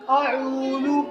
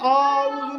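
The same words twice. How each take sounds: First: The first vowel is kept short. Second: The first vowel is drawn out long. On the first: The speaker calls it right. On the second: The speaker calls it wrong.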